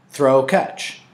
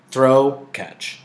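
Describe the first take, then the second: No difference in how they are said.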